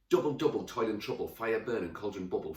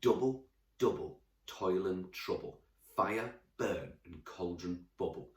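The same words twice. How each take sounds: First: It is read very fast. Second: It is read at a normal pace.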